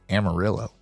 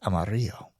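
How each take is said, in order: First: Amarillo is said with an English, Texan pronunciation. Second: Amarillo is said with a Spanish pronunciation.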